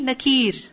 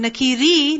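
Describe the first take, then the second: First: The word ends on the 'r' consonant. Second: The word ends with a short 'i' vowel. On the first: The speaker calls it right. "But instead of saying nakiri, nakir" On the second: The speaker calls it wrong. "there's a kasra under the ra. And what that implies is nakiri"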